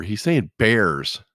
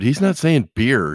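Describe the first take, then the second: First: "bears" stretched very slowly with an open eh vowel; slow, emphatic "bears" to clear up the mix-up; contrasted word. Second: "beer" drawn out slowly with an ee vowel; contrasted word. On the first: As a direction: hit "bears" as the correction. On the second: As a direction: set "beer" against bears, higher and slow. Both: Retold or imitated.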